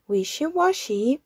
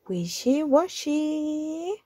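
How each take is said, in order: First: Said in the usual way. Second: 'wishy-washy' drawn out slowly, a bit higher; slow refrain. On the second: Acted. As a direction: stretch 'wishy-washy' as the closing line. Closing refrain, slowed.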